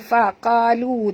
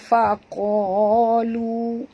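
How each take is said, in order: First: The qaf is pronounced light and thin. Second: The qaf is pronounced heavy and thick. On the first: The speaker calls it wrong. "Jangan baca faqalu" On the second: The speaker calls it right. "Qaf ni tebal"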